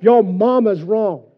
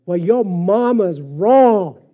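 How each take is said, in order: First: Loud, slow, higher yell; drill instructor yell. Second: Slow, loud drill instructor yell; retold yell. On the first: Retold or imitated. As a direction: shout it down at the recruit. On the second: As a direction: bark it like a drill sergeant. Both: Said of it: "And he yelled it".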